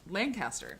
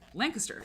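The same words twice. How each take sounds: First: The name is said the way it is spelled. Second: The name is said the local, not-as-spelled way. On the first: The speaker calls it wrong. "It's not Lancaster" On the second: The speaker calls it right. "it's like Lancaster"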